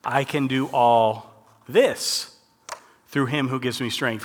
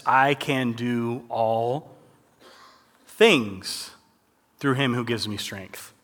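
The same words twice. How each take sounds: First: "this" drawn out on a slow rise; stress on this. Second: Slow, deliberate reading of the verse; slow careful reading. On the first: Showing the class the changed word "this", slow and pointed. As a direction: lean slowly into the word "this". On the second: Reading the verse slowly to the youth group, deliberate. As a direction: read it slowly so they notice each word. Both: Shown as a demonstration. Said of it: "Did you guys catch what I read?".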